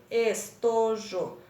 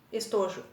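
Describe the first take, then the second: First: ES - TO - JO, slow and separated; teacher sounding out ES-TO-JO; split into syllables. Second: Said in the usual way. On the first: Shown as a demonstration. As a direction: say estojo in three slow beats, ES, TO, JO. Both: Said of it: "três pedacinhos".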